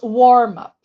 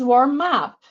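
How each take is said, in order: First: The stress falls on the first word. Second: The stress falls on the second word. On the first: It is the noun naming a lesson stage. "the noun is warm up ... have the stress on the first syllable" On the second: It is the verb meaning to prepare someone. "The phrasal verb is warm up, ... then the stress is on the particle"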